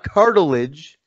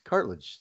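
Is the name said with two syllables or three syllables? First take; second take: three; two. First: The name is said with three syllables. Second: The name is said with two syllables. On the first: The speaker calls it wrong. "It's not cartilage" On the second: The speaker calls it right. "It's cartilage"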